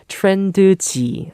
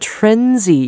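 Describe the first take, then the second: First: The name is said with added Korean vowel syllables. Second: The name is said as short English syllables. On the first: "the Korean pronunciation is" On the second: "You call them [name]"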